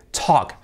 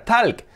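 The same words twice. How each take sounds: First: "talk" as "tok" with a hard initial T; strong T, silent L. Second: "talk" with a sounded L and an A vowel, "talc"; L wrongly pronounced. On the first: Teacher modelling for learners, "talk" with strong T and silent L. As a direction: hit the T of "talk" and leave out the L. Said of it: "con la T muy fuerte". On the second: Teacher imitating learners' mistake, "talk" as "talc" with audible L. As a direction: say the L in "talk", open A. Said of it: "una L que vais a decir". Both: Shown as a demonstration.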